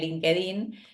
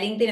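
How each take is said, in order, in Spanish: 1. El nombre se pronuncia a la manera española. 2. El nombre se pronuncia a la manera del inglés americano. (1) "la gente dice LinkedIn, que, es- que está perfecto" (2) "todo el mundo decía LinkedIn"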